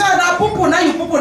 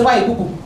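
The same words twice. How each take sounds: First: Put-on mildly cooing, pitched up to a baby; indulgent baby talk. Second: Lower-pitched, matter-of-fact mock reproach; mild scolding. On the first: Parent to baby who pooed, indulgent and lilting. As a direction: dote lightly on a messy baby. Cooing over the baby's mess. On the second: Parent to baby who pooed, mildly scolding. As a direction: take the baby lightly to task.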